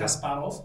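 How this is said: The name has the speakers' home-region pronunciation. "because we're from a similar part of the, the region, we say"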